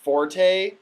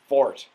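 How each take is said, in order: First: The word has two syllables, ending in a vowel. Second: The word has one syllable, ending in t. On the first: This is how everyone says it now. The speaker calls it wrong. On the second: This is the original pronunciation. The speaker calls it right.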